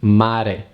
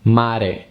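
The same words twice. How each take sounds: No difference in how they are said.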